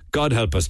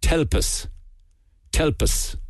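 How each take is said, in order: First: Said in the usual way. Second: Limerick clipped "Telp us", God swallowed into a breathy T; Limerick pronunciation. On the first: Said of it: "as we say". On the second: Shown as a demonstration. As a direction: say "Telp us" the Limerick way, whispered quick. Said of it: "in Limerick they say".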